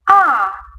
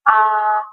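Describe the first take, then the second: First: The pitch starts high and falls. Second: The pitch starts low and rises. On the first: "falling tone. Ah, this tone you have start at the high position, go lower" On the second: "you start at the lower position. Ah, then go higher"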